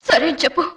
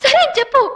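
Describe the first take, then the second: First: Low, restrained prompt to agree; low insistence. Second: High, pressing demand to agree; raised insistence. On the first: Woman pressing the listener to say okay, low and restrained. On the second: Woman repeating her demand for an okay, high and insistent. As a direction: lift the pitch and insist on a yes. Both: Acted.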